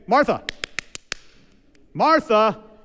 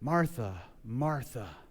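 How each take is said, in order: First: It is said sharply, to grab attention. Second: It is said in a soft, gentle tone.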